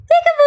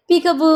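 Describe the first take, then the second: First: High, louder playful peekaboo call; sing-song peekaboo. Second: Said in the usual way. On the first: Shown as a demonstration. Parent playing peekaboo with the baby, bright high sing-song call. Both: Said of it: "గుడ్డు పీకబు చేయి".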